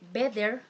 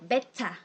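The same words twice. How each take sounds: First: It is said with an American accent. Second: It is said with a British accent. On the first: "the word better in American English" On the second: "the word better in British English"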